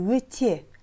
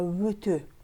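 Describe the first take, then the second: First: The second vowel sounds like 'e'. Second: The second vowel sounds like 'ö'. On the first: The speaker calls it wrong. "Не «өте»" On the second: The speaker calls it right. "а «өтө»"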